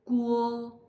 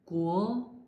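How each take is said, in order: First: It is said with the first tone. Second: It is said with the second tone. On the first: "first sound sounds like Guo" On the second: "second tongue"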